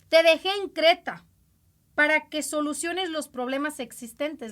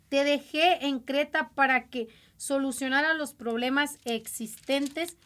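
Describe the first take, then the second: First: It is read at a louder, stronger volume. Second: It is read at a normal, softer volume.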